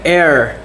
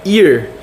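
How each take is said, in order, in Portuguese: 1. A palavra soa como 'air'. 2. A palavra soa como 'ear'. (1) "não é air" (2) "é ear"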